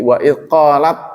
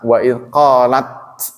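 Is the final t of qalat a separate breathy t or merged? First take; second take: merged; separate. First: The final t merges into the following heavy t. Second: The final t is released separately with breath. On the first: The speaker calls it right. "Jadi taknya masuk ke to. Jadi wa idh qalat" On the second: The speaker calls it wrong. "kalau dibaca ta, wa idh qalat, gitu kan, ada hamesnya"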